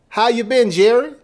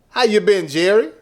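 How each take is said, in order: Both takes have the same delivery.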